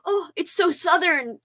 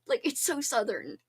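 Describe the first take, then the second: First: Slower, higher, drawled exclamation of "so Southern"; mock gushing. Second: Said in the usual way. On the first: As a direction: imitate your own delight at it. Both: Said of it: "I was like".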